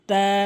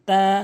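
Both takes have the same delivery.

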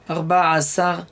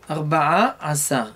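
The two takes are said the same way.

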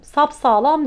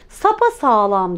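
First: The word is said with no vowel after sap. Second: An extra vowel is inserted after sap. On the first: "Sapsağlam demiyorum" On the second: "Sapa sağlam diyorum"

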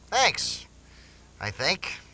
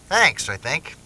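First: A strong thanks, then I think after a beat. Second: The words run on without a delay.

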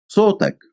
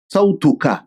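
First: It is said short, in colloquial dialect form. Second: It is said in full, in formal standard form. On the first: "şu an yerli lehçeye göre söylüyorum"

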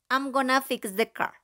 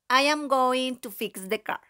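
First: The first words are contracted and squeezed together. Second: Every word is said fully and separately. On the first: It suits an informal context. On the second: It suits a formal context.

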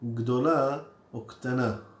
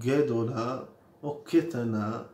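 First: The first two consonants join with no vowel. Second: A short e follows the first consonant. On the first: The speaker calls it wrong. "ולא אומרים גדולה או קטנה" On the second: The speaker calls it right. "אומרים גדולה או קטנה"

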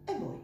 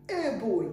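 First: The article has a soft, neutral vowel. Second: The article has a hard, full vowel. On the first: The speaker calls it right. "мы его мягенько произносим «э бой», такое нейтральное «э»" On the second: The speaker calls it wrong. "мы не говорим «э бой»"

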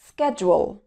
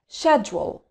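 First: It is said with an American accent. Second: It is said with a British accent. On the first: "وبعدين الأمريكان أكسنت" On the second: "هننطق الأول البريتش أكسنت"

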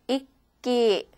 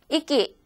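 First: The word is said in three beats, holding the stop. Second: The word is said quickly in two beats. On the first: The speaker calls it right. "총 세 박자로 하시면 돼요" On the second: The speaker calls it wrong. "이렇게 두 박자로 하는 게 아니라"

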